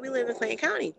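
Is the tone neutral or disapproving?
neutral. It is said in a plain, neutral tone.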